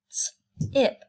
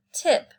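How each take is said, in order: First: "T-ip" split, breathy; segmented word. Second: Said in the usual way. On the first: Shown as a demonstration. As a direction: sound out "T-ip".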